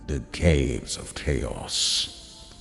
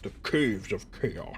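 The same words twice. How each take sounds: First: It is said in a grand, epic voice. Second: It is said in his ordinary voice.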